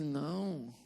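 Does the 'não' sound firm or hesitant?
hesitant. The no sounds weak, hesitant and playful. It is really a yes disguised as a no. The speaker calls it wrong. "Isso é um sim disfarçado de não"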